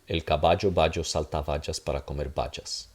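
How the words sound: The b and v sounds are hard stops. "I'll do the English one again"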